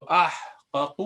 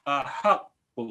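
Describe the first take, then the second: First: احقق as ah-qa-qu, h without a vowel; teacher sounding out uncontracted احقق; original unmerged form. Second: احق as a-HAQ-qu, a vowel after the h; teacher sounding out contracted احق, a-haq-qu; merged doubled qaf. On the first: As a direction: keep both qafs of احقق in separate syllables. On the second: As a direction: shift the a back and double the q in احق. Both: Shown as a demonstration. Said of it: "اس کا زبر پیچھے والے کو دے دیتے ہیں".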